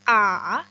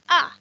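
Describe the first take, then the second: First: It is said with the third tone, dipping. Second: It is said with the fourth tone, falling. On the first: "yang ketiga a" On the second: "yang keempat a"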